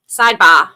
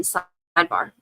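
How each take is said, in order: First: Loud Boston "Sidebar", ending in "bah"; lower, louder put-on Boston accent. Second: Said in the usual way. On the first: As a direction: punch it out with a mock Boston accent, R dropped. Repeats word in Boston accent.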